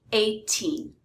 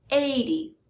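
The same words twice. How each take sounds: First: Put-on "eighteen" with long, stressed "teen". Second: "eighty" stressed on "eigh", short weak "ty". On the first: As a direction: lean on the end of "eighteen". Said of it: "the stress is on the teen". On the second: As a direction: punch the start of "eighty". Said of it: "stress is on the first syllable". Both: Shown as a demonstration.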